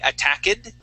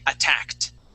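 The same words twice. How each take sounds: First: The ending is said as a separate syllable. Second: The ending is said as a plain t sound. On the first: The speaker calls it wrong. "We do not say" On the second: The speaker calls it right. "that ed sounds like a t instead of an ed"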